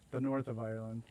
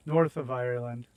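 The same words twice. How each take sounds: First: Said in the usual way. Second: "north of Ireland" said louder, stressing "north"; self-correcting, leaning on "north"; corrected stress. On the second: Shown as a demonstration. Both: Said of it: "I got it".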